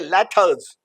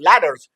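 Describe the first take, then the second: First: The middle consonant is a clear t sound. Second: The middle consonant is a soft d-like flap. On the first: "और ये लेटर्स" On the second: "soft ड के साथ ये बोलेगा American"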